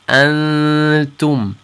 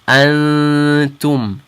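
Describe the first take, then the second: The two takes are said the same way.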